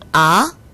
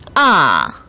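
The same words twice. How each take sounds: First: The pitch climbs quickly from low to high. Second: The pitch drops sharply from high to low. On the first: "올라가는 성조 제이 성" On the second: "높은 음에서 낮은 음으로 뚝 떨어지는 제사성을 발음했습니다"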